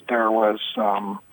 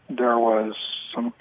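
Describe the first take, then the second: No difference in how they are said.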